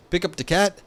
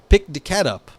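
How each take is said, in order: First: "Pick up the cat" higher, rising on "cat"; questioning demo. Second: "pick the cat up" loud on "pick", falling to "up"; answering demo. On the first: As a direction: lift "cat" like an open question. Demonstrating two word orders. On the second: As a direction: punch "pick", then drop to close on "up". Second word order, as the answer. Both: Shown as a demonstration.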